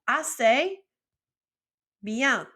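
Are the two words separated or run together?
separated. The two words are said separately, with a break.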